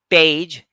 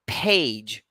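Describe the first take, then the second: First: The p is said without a puff of breath. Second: The p is said with a puff of breath. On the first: This is how many non-native speakers say it. The speaker calls it wrong. "It's not page" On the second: This is how native speakers say it. The speaker calls it right. "it's actually page"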